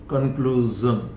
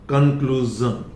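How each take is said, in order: No difference in how they are said.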